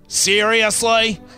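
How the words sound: It is said in an Australian accent.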